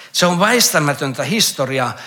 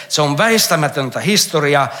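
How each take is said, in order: Both takes have the same delivery.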